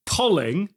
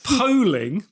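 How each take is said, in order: First: "polling" with a short O, as in doll; short O pronunciation. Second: "polling" with a long O, as in pole; long O pronunciation. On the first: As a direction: say "polling" as POLL-ing, rhyming with dolling. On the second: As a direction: say "polling" as POLE-ing, drawn out. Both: Shown as a demonstration. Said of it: "Is it pronounced polling or polling".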